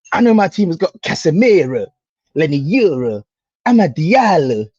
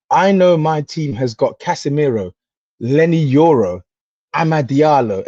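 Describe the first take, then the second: First: Mock boast, names stretched out; imitating rival's delivery. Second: Said in the usual way. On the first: Fan throwing rival's boast back at him, mocking imitation. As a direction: quote it back how the rival said it, emphatically. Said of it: "I'm gonna say it how you said it". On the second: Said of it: "let me even say it how you said it".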